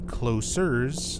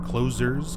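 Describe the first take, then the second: First: The middle consonant is a hissing s sound. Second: The middle consonant is a buzzing z sound. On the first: Something that is near or intimate. "as a reference to Nine Inch Nails" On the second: Something that shuts or closes. "because you first meet them at the mall. You meet them when the mall is closing"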